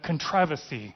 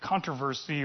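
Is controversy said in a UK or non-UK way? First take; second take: UK; non-UK. First: It is said in a UK way. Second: It is said in a non-UK way.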